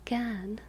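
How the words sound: The R is dropped, British style. "But it's British, so it's like Gern"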